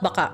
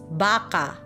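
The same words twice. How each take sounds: First: The word is said short and quick. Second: The word is said drawn out and longer. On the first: It means maybe. "I'm not baka" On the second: It means cow. "So it's it's more longer"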